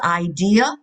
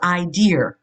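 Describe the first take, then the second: First: The word ends in a plain vowel sound. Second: The word ends with an added R sound.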